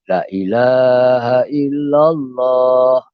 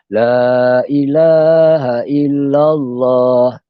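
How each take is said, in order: First: The first 'la' is cut short. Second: The first 'la' is drawn out long. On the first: The speaker calls it wrong. "lam yang pertama yang mula-mula itu dibaca dengan pendek" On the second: The speaker calls it right. "sepatutnya kita baca"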